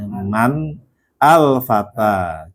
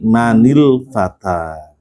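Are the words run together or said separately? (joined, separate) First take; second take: separate; joined. First: The words are said separately without linking. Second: The words are linked with a joining vowel.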